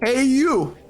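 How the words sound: It is said in a loud, full voice. "It's a little loud"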